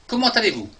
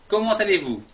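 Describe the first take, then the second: No difference in how they are said.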